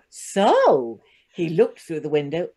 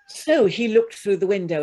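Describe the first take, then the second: First: The voice rises at the end. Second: The voice falls at the end.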